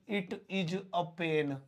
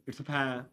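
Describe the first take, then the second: First: 'It is' is said as two full words. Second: 'It is' is shortened to one syllable. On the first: The speaker sounds like a beginner still learning. "वैसे तो मैं सीख रहा हूं तो ऐसे बोलूंगा" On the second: The speaker sounds more stylish and fluent. "कुछ जरा स्टाइलिश, ... इट्स बोलेंगे तो शॉर्ट में"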